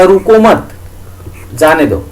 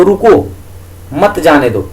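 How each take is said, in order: First: "रुको मत" as one unit, a long break, then "जाने दो" falling; pause after मत. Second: "रुको" alone, a break, then "मत जाने दो" run together; pause after रुको. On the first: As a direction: break the phrase between मत and जाने. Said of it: "इसी यति को उठा करके अगर मैं यहां लगा देता हूं". ("रुको मत" के बाद ठहराव, फिर "जाने दो") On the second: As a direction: break the phrase between रुको and मत. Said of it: "अगर मैं यहां यति लगाता हूं". ("रुको" के बाद ठहराव, फिर "मत जाने दो") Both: Shown as a demonstration.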